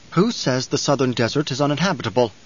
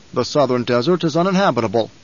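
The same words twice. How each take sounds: First: Measured, questioning Count voice; challenging Count. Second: Firm, certain statement in the Baron's voice; assertive Baron. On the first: Count questioning the Baron's claim about the desert, challenging. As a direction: query the claim coolly, without pushing. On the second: Baron assuring the Count the south is empty, assertive. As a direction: state it as settled fact. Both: A narrator's reading.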